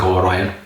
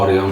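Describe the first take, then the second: First: "Orion" as oh-RYE-un; "Orion" like the constellation, oh-RYE-un; first pronunciation of Orion. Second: "Orion" as OR-ee-on; "Orion" stressed at the front, OR-ee-on; alternative pronunciation of Orion. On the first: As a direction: say "Orion" with a stressed RYE in the middle. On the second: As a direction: say "Orion" with an EE in the middle. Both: Shown as a demonstration. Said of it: "I don't know how you pronounce it".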